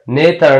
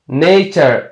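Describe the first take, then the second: First: "نیتر" said with a plain t instead of ch; wrong T pronunciation. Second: "نیچر" said with ch in the middle; correct CH pronunciation. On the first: Teacher shows the mistake to avoid, "نیتر" with a hard t. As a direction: say "نیتر" as nay-ter, the mistaken way. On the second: Teacher models the word for learners, "نیچر" with a ch sound. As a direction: say "نیچر" as nay-cher. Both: Shown as a demonstration.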